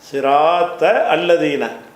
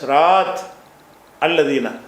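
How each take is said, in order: First: The words run together with a linking vowel. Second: The first word stops on t before a break. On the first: "முந்தனோட சேர்த்து படித்தா" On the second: "உடைச்சா"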